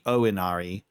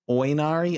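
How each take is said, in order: First: The name is said with a Japanese pronunciation. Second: The name is said with an English pronunciation. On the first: The speaker calls it right. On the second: The speaker calls it wrong.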